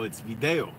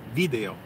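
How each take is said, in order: First: The stress is on the second syllable. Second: The stress is on the first syllable. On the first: "The second to last syllable is the gets the accent" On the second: "the accent is over the I"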